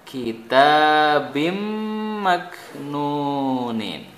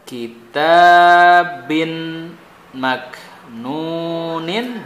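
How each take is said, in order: First: The n sound merges into the m. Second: The n sound is clearly pronounced.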